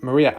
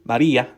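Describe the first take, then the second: First: The name is said in a normal voice. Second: The name is said in a put-on accent. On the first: "I can't say Maria" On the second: "I have to say Maria"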